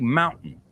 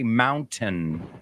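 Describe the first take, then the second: First: It is said the American way. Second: It is said in a non-American way. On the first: "but Americans, you know, we say mountain" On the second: "you can say mountain"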